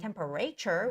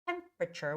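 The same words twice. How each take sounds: First: The stress is on a later syllable. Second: The stress is on the first syllable. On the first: The speaker calls it wrong. "I see some students in Korea saying temperature, which is wrong" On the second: The speaker calls it right. "It's temperature with the first syllable stress"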